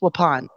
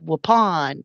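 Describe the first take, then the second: First: It is said short, without a Southern accent. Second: It is said in a Southern American accent. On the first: The speaker calls it right. "but it's" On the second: The speaker calls it wrong. "originally with my Southern accent, I would have said"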